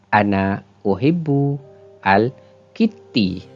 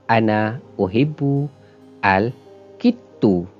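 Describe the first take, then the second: First: The last word ends in an i vowel. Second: The last word ends in a u vowel. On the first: "dibaca dengan baris di bawah ... Salah" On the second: "dibaca dengan baris di depan ... Juga bacaan ini salah"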